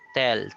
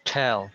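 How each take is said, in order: First: The T is released with no puff. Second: The T is released with a strong puff. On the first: The speaker calls it wrong. "we pronounce the letter T without aspirating it" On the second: The speaker calls it right. "every time I pronounce a T sound, the air moves"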